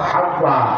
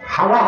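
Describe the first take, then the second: First: The w sound is lengthened and doubled. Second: The w sound is short and single. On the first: The speaker calls it right. "বিতাশদীদ ... হবে কি?" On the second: The speaker calls it wrong. "লাইসা বিতাখফীফ ... হাওয়া হবে না"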